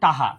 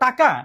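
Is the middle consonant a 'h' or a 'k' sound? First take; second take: h; k. First: The middle consonant is a soft h sound. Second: The middle consonant is a clear k sound. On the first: This is how it is said regionally. The speaker calls it wrong. "আমরা বলি টাহা" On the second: This is the standard form of the word. The speaker calls it right. "শব্দ হলো টাকা"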